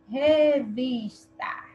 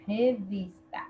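First: "Revista" slowly drawn out, stressed on "vis"; syllable by syllable. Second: Said in the usual way. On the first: Shown as a demonstration. Teacher showing the strongest syllable, "Revista" stretched with weight on "vis". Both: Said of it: "Qual é a mais forte?".

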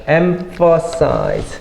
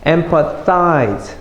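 First: Emphasize stretched slowly, PH as F, then an S; "emphasize" drawn out, em-fuh-size; F and S sounds. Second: "empathize" drawn out with tongue-tip TH; P and TH sounds. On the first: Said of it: "요 P H가 F 사운드 나가지고". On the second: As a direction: say "empathize" very slowly as em-puh-thize. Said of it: "요게 번데기 발음이야". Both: Shown as a demonstration.

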